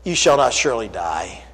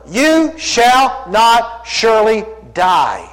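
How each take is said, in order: First: Much lower and softer, a lightly voiced tempter; understated sly serpent. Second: Slow, every word weighed; deliberate slow quote of the serpent; drawn-out denial. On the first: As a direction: let the serpent murmur it low. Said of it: "the serpent said unto the woman". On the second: Acted. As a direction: stretch the serpent's lie out slowly. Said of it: "denies God's word".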